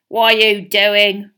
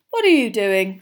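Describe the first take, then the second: First: Slow, loud, accusing snarl; drawn-out menacing question; suspicious snarl. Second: Light, friendly inquiry; kindly curious question; mild, unlike Filch. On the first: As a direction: challenge him slowly, full of suspicion. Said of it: "Filch snarled suspiciously". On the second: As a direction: ask with casual interest, no accusation. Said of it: "in a very different voice from Filch". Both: A narrator's reading.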